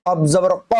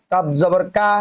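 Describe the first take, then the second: First: Rounded, throaty ক for qaf; qaf sound. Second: কা as an ordinary k with open "aa"; plain open কা for kaf; kaf sound. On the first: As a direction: say ক from the back of the mouth. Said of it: "উচ্চারণটি করে নেবেন". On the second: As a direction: say কা with a light front k. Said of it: "কাপ জবর কা হবে". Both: Shown as a demonstration.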